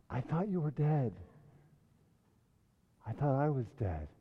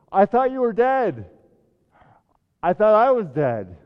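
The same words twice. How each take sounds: First: Hushed echo. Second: Loud, high, breathless astonishment; gasped joy. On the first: Pastor re-quotes softly. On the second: Sam gasping at Gandalf alive, loud astonished joy. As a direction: burst out as if seeing the dead alive. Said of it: "At last he gasped". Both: A narrator's reading.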